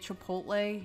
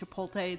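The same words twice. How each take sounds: First: The word is pronounced in its careful full form. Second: The word is pronounced in a lazy altered form. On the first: The person saying it is not a boomer. The speaker calls it right. "If you say it Chipotle, you're not a boomer" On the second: The person saying it is a boomer. The speaker calls it wrong. "if you say it Chipotle, then you're totally a boomer"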